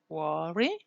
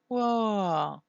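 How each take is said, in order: First: The pitch starts low and rises. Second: The pitch starts high and falls. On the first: "the rise tone. And it sounds like this" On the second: "it falls"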